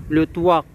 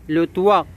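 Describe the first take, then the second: Both takes have the same delivery.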